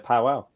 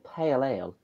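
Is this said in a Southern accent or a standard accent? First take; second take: Southern; standard. First: It is said in a Southern English accent. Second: It is said in a standard English accent. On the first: "it's just how you say a pa- in the South" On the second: "rather than"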